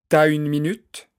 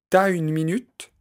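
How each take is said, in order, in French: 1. La voyelle de tu est supprimée : elle s'élide. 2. La voyelle de tu est supprimée : elle s'élide.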